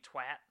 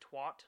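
First: The vowel sounds like an A. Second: The vowel sounds like an O. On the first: The speaker calls it right. "It's supposed to be" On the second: The speaker calls it wrong. "like it was an O"

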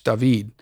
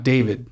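First: The name is pronounced the Spanish way. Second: The name is pronounced the English way. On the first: The speaker calls it right. "pronounce his name in Spanish" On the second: The speaker calls it wrong. "not David"

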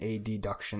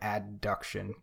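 First: The first syllable is spoken as separate letters. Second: The first syllable is spoken as a normal syllable. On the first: "you say abduction and adduction as opposed to" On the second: "as opposed to abduction and adduction"

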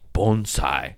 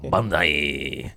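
First: The word has a careful, foreign-sounding pronunciation. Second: The word has a plain American pronunciation. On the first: It is the original, correct pronunciation. "he kept saying, ... I don't care if you're saying it the correct way" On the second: It is how Americans normally say it. "We're fucking American, dog"

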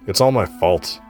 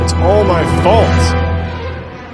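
First: It is said in a louder voice. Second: It is screamed at full volume.

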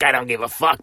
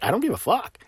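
First: It is said with a negative, defiant tone. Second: It is said with a positive, joyful tone.

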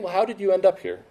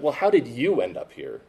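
First: No word gets strong extra stress. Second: The word 'you' gets strong extra stress. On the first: The speaker is inviting the listener to share their story. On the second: The speaker is challenging whether the listener belongs there.

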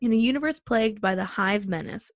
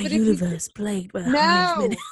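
First: It is read in a plain American accent. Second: It is read in a put-on British accent.

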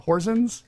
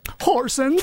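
First: The name is said in a plain, ordinary way. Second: The name is said in an exaggerated accent.

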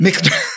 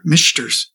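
First: The middle consonant is a k sound. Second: The middle consonant is a sh sound. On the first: The speaker calls it right. "It's like a K sound" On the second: The speaker calls it wrong. "You're putting a sh in it"

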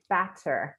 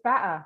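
First: The middle t sound is clearly pronounced. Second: The middle t sound is dropped. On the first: "I don't say batter" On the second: "there's no tea. That's batter"

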